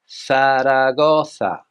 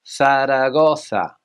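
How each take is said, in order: The two takes are said the same way.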